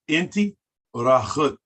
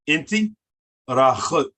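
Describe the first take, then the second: No difference in how they are said.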